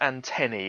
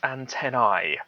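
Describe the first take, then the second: First: The final vowel is an 'ee' sound. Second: The final vowel is not an 'ee' sound. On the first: The speaker calls it right. "it is pronounced antennae" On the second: The speaker calls it wrong. "It's not antennae"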